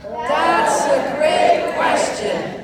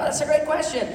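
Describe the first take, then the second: First: Repeat-after-me demo. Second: Said in the usual way. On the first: Shown as a demonstration. Coaching the room to say it properly, slow loud praise. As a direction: stretch it out big so the room joins in. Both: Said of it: "How you say?".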